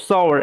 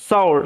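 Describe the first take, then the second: The two takes are said the same way.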